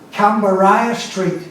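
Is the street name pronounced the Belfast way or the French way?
Belfast. The name has a local Belfast pronunciation. "as the Belfast pronunciation"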